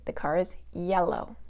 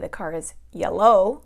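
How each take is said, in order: First: The stress is on the first syllable. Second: The stress is on the second syllable. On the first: The speaker calls it right. "the first syllable is going to take the stress" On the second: The speaker calls it wrong. "We do not say"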